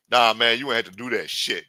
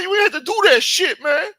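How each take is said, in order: First: Louder scolding voice close to the speaker's own; Hakeem, corrected voice. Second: Loud falsetto squeal of mock outrage; Hakeem, first try. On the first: Retold or imitated. Hakeem scolding the shooter in the car, firm natural-pitched voice. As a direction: scold firmly without any falsetto. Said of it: "Yeah, that's how he talks". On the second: Hakeem scolding the shooter in the car, squealed falsetto. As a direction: squeal the scolding far above your own voice. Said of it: "is that how he talks?".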